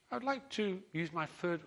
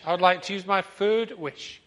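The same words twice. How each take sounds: First: The man's line said higher by mistake; man's wish in the wrong, higher fish voice; man slipping into fish voice. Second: Louder man's voice, not the high fish; man's wish redone loud and normal; man's proper voice. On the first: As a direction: accidentally use the fish's high voice for the man. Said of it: "oh, that's the fish voice, isn't it?". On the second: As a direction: say it back in the man's own voice. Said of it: "The man doesn't speak like the fish". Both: Acted.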